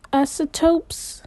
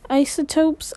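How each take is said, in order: First: Isotopes said "ASS-uh-topes", slow and rising; higher, questioning isotopes with a misread first vowel; unsure guess. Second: Isotopes said "EYE-suh-topes", a bit higher; isotopes as "EYE-suh-topes", still tentative; tentative correction. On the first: Second guess at the word. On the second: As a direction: try isotopes with a long EYE at the start. Third guess at the word. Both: Acted.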